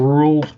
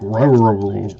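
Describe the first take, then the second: First: It is said in a plain American accent. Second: It is said in an imitated British accent.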